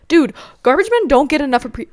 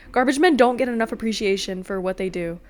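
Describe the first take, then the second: First: Louder, higher, worked-up praise; amped up. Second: Said in the usual way. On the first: Real, not acted. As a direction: get fired up about the garbage men. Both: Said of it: "I'm, like, amping up right now".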